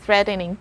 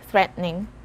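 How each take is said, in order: First: The middle vowel is sounded. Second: The middle vowel is dropped. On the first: "you can actually pronounce it as threatening too" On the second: "if you want to speak faster, just say threatening"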